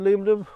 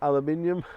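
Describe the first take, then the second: First: It is said in four syllables, ending -num. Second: It is said in five syllables, ending -nium.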